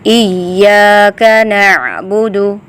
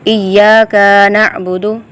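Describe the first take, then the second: First: The vowel after the k is kept short. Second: The vowel after the k is drawn out long. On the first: The speaker calls it right. "या को लंबा करेंगे, काफ को नहीं करेंगे।" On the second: The speaker calls it wrong. "काफ को लंबा नहीं करना। अक्सर क्या होता है ... ऐसे नहीं"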